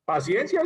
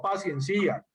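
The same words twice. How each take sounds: First: "Paciencia" with its last "cia" unstressed, one syllable; stress on second syllable. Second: "paciencia" mispronounced as pa-cien-CÍ-a; "paciencia" ending in a separate, stressed CÍ-a; stress moved to I. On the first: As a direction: put the force on the "cien" of "Paciencia". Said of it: "Paciencia sin tilde". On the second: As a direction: wrongly stress the last i of "paciencia". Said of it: "pero ojo, no paciencia". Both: Shown as a demonstration.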